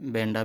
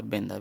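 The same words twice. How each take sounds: First: "बेंडा" with a retroflex ḍ; "बेंडा", the hard ḍ version; retroflex spelling variant. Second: "बेंदा" with a dental d; dental spelling variant. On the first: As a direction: say "बेंडा" with the tongue curled back on ḍ. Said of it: "Hindi वाले बेंडा भी लिख देते हैं". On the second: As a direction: say "बेंदा" with the tongue touching the teeth on d. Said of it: "और बेंदा भी लिख देते हैं". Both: Shown as a demonstration.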